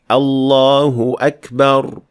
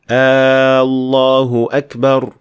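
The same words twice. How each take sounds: First: The opening vowel of Allahu is short. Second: The opening vowel of Allahu is drawn out. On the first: It states that God is the greatest. The speaker calls it right. "you should just pronounce the Hamzat al-Wasl" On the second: It asks whether God is the greatest. The speaker calls it wrong. "adding alif to the beginning of the honored word"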